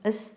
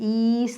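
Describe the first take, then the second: First: The vowel is short, like 'es'. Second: The vowel is long, like 'ees'. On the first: The speaker calls it right. "എസ് എസ് ആണ് എസ്" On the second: The speaker calls it wrong. "ഈസ് എന്ന് പറയാം"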